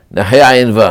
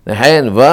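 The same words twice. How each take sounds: The two takes are said the same way.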